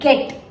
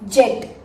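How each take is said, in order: First: The word begins with a hard g sound. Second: The word begins with a soft j sound. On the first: The speaker calls it right. "G sound stays there" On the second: The speaker calls it wrong. "It's not jet"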